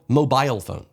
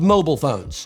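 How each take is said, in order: First: Mobile is said with a British pronunciation. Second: Mobile is said with an American pronunciation. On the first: The speaker calls it right. "They're called" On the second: The speaker calls it wrong. "they're not called"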